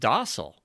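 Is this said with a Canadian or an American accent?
American. It is said the American way.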